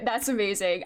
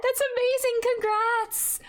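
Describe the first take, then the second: First: Said in the usual way. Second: "That's amazing" squealed high and delighted; excited. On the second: Real, not acted. Streamer squealing "That's amazing" at chat's finished draft. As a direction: gush the word "That's" up high. First reaction to chat news.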